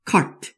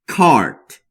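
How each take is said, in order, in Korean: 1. 모음은 짧게 발음해요. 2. 모음은 길게 발음해요. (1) "cart 이렇게 짧게 하시는 게 아니라" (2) "cart라고 길게 발음하시면 됩니다"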